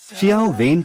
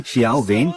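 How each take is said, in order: First: Mock plea. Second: Said in the usual way. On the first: Mocking captive's plea for help.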